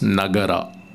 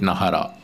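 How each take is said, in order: First: The middle consonant is a hard g sound. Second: The middle consonant is a soft h-like sound. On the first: The speaker calls it right. "if it is Nagara in Sanskrit" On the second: The speaker calls it wrong. "we cannot use the Tamil rule for saying Nagara and say it Nahara"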